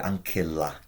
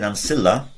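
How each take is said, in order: First: The c is said as a hard k sound. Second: The c is said as a soft ch sound. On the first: This follows the ancient Roman pronunciation. The speaker calls it right. "in Roman times, this would be ancilla" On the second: This follows a later church pronunciation. The speaker calls it wrong. "I don't think a Roman would have pronounced it like that"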